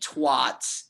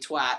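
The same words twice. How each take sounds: First: It is pronounced the typical American way. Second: It is pronounced the non-American way. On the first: The speaker calls it wrong. "how Americans typically say twat" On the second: The speaker calls it right. "it's actually twat"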